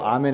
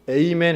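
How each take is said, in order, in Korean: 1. "Amen"은 한국식 발음으로 합니다. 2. "Amen"은 영어식 발음으로 합니다. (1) "당시 아람어로는 아멘이 맞아요" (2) "영국, 미국 사람들이 그게 안 되니까 잘못된 발음이에요"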